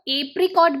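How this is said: The word is said in a British way. "British वे में इस fruit को एप्रिकॉट भी कहते हैं"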